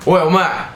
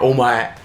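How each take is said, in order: First: Higher-pitched demo of calling someone; rude call-out. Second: Said in the usual way. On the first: Shown as a demonstration. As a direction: call out "Oi, omae" brusquely, as an example. Demonstrates rudely addressing someone with omae.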